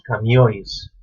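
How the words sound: The n is dropped, ending in -ois.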